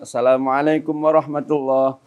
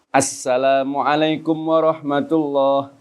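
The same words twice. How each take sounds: First: The s sound is short and single. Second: The s sound is clearly doubled and held. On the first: The speaker calls it wrong. "maka syarat salamnya kurang" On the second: The speaker calls it right. "tasdidnya harus jelas"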